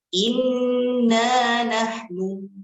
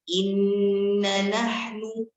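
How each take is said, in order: First: The long alif vowel is held out fully. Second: The long alif vowel is dropped and cut short. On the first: The speaker calls it right. "Kata aslinya adalah" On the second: The speaker calls it wrong. "tidak terbacanya alif mad"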